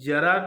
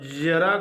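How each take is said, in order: First: The word begins with a plain j sound. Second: The word begins with a buzzing z sound. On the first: It means old age. "जरा कहेंगे तो बुढ़ापा" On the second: It means a little. "जरा कहेंगे तो थोड़ा सा"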